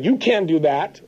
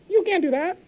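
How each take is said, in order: First: It is said in a normal speaking voice. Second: It is said in a squeaky cartoon voice. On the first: The inner voice sounds discouraging. "if the voice starts to say" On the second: The inner voice sounds silly and laughable. "change the voice tone so it sounds like Pluto or Mickey Mouse"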